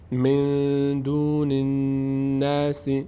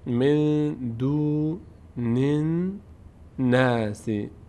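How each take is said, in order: First: It is recited quickly without stopping. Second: It is recited slowly, syllable by syllable. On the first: "سریع گذر میکنم" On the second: "آرام میخوانم"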